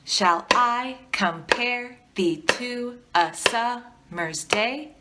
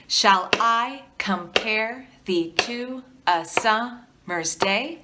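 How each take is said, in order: First: Slow, "Shall I compare" with the stress on every second beat; iambic reading. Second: Slow, "compare" and "summer's" stressed on every second beat; iambic reading. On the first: Teacher reciting with students, every second syllable stressed. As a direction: lean on the beat, da-DA. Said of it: "try it with me". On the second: Teacher reading Shakespeare to students, stressing every second syllable. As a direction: read it as da-DA da-DA. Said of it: "I'll go first". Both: Shown as a demonstration.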